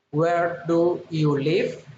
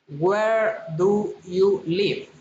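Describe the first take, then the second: First: LIVE rising at the end; friendly rising question. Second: Said in the usual way. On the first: Shown as a demonstration. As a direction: ask politely, lifting the pitch on "live". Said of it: "Friendly interest, politeness, rising intonation". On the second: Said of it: "rising intonation".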